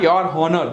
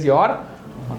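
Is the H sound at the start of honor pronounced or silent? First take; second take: pronounced; silent. First: The H at the start is pronounced. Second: The H at the start is silent. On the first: The speaker calls it wrong. "it is not your honor" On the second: The speaker calls it right. "but it is your honor. So here the H is silent"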